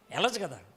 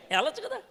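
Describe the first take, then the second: First: వెళ్ళొచ్చు కదా settled low, with a firm fall and the stress on వెళ్ళొచ్చు; వెళ్ళొచ్చు కదా as a flat, lower-pitched confirmation; falling answer. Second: వెళ్ళొచ్చు కదా asked high, with కదా lifted at the end; వెళ్ళొచ్చు కదా with a high questioning rise on కదా; rising question. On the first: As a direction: answer your own question with certainty. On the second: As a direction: toss it out as a hopeful question. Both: Shown as a demonstration.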